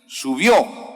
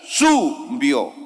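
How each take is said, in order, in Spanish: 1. El acento está en la última sílaba. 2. El acento está en la primera sílaba. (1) "está en la O. Entonces debe leer así" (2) "Si esa tilde estuviera en la U, diría subió"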